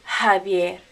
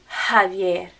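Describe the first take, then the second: No difference in how they are said.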